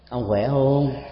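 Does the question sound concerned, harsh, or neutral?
concerned. It is asked in a weightier, more caring tone. It shows somewhat greater concern. "nó có một cái sức trọng lực, cái sự quan tâm cao hơn chút xíu"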